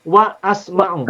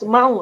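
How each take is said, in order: First: WA ASMA'U cut between wa and as; a separate a starting asma'u in WA ASMA'U; hamzah pronounced. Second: WASMA'U run together as was-ma'u; hamzah dropped. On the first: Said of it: "tapi harus". (wa asma'u dipotong, hamzah dibaca) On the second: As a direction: swallow the a, joining wa to s in WASMA'U. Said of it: "Tidak boleh". (wasma'u disambung, hamzah tidak dibaca) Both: Shown as a demonstration.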